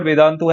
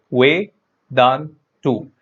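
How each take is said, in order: First: Said in the usual way. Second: Vedantu broken up as Ve, Dan, Tu with a pause between each syllable; split into syllables. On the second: Shown as a demonstration. Teacher counting the syllables of Vedantu for students, clearly split. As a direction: say Ve, Dan, Tu as three separate beats. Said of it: "three units of pronunciation".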